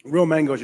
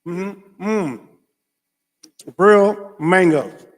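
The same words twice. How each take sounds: First: Said in the usual way. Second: Loud, very slow delight; savoring exclaim. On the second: Real, not acted. Vlogger holding mangoes, slow loud delight. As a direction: draw it out lovingly.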